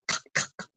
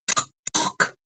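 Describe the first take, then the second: First: Said in the usual way. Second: Louder knocking. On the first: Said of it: "He knocks on the door". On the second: A narrator's reading. Wolf knocks again at grandmother's door, much louder. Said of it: "He knocks louder".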